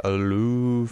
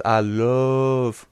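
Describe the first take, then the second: First: "love" said as a long "loove"; three-O love. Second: "love" with a long, held vowel; drawn-out love. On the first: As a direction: stretch "love" into an oo sound. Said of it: "I don't know how you say it". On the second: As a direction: stretch out the word "love". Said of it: "love with three O's". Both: Retold or imitated.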